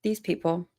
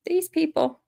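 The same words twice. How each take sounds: First: Said in the usual way. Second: Higher, soft and fed up; exasperated. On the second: Pretend. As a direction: sigh these people out in disbelief.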